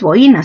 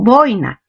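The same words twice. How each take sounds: First: The stress falls on the second syllable. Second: The stress falls on the first syllable. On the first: The speaker calls it wrong. "lo correcto no es boina" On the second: The speaker calls it right. "sino boina... es una grave terminada en vocal"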